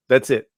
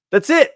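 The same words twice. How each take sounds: First: Said in the usual way. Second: "That's it" jumps way up and rises at the end; high, sing-song "That's it?"; high rising repeat. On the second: Real, not acted. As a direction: throw the "it" up high as a gleeful echo. Second take, swooping up.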